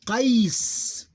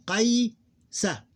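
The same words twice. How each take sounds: First: Qais loud, high and drawn out, closed on S; sukoon ending. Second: Qaysa high, long "qay" then short "sa"; diphthong, open ending. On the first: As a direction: glide through Qais and end on a long S. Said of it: "pronounce it as sukoon ending". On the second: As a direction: glide through "qay" in Qaysa and add "sa". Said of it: "This is what I mean". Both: Shown as a demonstration.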